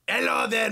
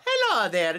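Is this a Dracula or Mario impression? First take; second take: Dracula; Mario. First: It is said in a Dracula voice. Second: It is said in a Mario voice.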